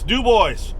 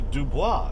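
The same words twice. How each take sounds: First: The name is said the English way. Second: The name is said the French way. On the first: This is how the locals actually say the name. "No, it's Dubois" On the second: This is how the name would be said in French. "because that's a French pronunciation"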